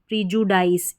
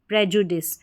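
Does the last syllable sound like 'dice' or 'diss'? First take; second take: dice; diss. First: It starts with 'pree' and ends with 'dice'. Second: It starts with 'preh' and ends with 'diss'. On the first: The speaker calls it wrong. "इस तरीके से पढ़ देंगे प्रीजुडाइस, जो गलत होगा" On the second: The speaker calls it right. "P R E को यहाँ पर हम पढ़ेंगे प्रे ... डिस"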